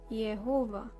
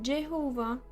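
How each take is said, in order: First: The name begins with a Y sound. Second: The name begins with a J sound. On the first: The speaker calls it right. "it's Ye" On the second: The speaker calls it wrong. "Not Jehovah"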